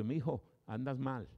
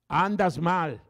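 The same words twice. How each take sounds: First: Said in the usual way. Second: Higher and much louder, falling hard on "Andas mal"; booming rebuke. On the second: Acted. God's voice warning a sinner.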